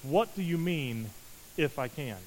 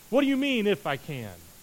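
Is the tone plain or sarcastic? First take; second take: plain; sarcastic. First: It is read in a plain, neutral tone. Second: It is said with a wry, sarcastic tone.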